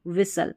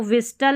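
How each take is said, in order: First: विसल with a silent T; correct pronunciation. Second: विस्टल with the T sounded; wrong pronunciation. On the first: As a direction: say विसल, no T after S. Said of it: "लेकिन पढ़ेंगे विसल". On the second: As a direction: say विस्टल with a clear T after S. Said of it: "इसको विस्टल नहीं". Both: Shown as a demonstration.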